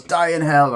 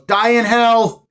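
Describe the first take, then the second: First: Said in the usual way. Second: Slow, drawn-out shout, much higher and louder; mock curse. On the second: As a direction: spit the curse out slowly like a hammed-up villain. Retold curse at customer.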